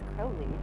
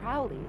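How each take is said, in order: First: The name rhymes with 'holy'. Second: The name rhymes with 'Fowley'. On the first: The speaker calls it right. "it's Crowley like Holy" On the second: The speaker calls it wrong. "It's not Crowley like Fowley"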